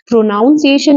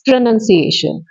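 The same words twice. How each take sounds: First: The second syllable sounds like noun. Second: The second syllable sounds like nun. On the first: The speaker calls it wrong. "प्रोनाउंसिएशन नहीं होता" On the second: The speaker calls it right. "It's प्रोनाउंसिएशन"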